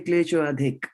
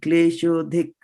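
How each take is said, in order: First: An 'a' sound is spoken before 'dhik'. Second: The words join with no 'a' before 'dhik'. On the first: The speaker calls it wrong. "don't say klesho adhik" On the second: The speaker calls it right. "you will not pronounce it as a a, but you will pronounce the two words together"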